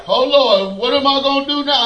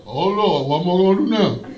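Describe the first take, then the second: First: Fast, self-pitying whine; whining to God. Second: A lower, fast mocking echo of the whine; mock the whiner back, a touch lower; God mimicking. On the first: Retold or imitated. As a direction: complain to the Lord, a bit rushed. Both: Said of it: "God mimics me".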